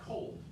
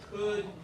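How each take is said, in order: First: The vowel is a rounded long O glide. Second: The vowel is short and unrounded. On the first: "I heard you say I cold" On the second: "short could"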